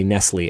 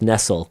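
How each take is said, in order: First: The word ends in a vowel sound. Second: The word ends in an L sound. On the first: It is the brand name as people say it. "so we just say Nestle" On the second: It is the ordinary English verb. "even though that would be pronounced Nestle"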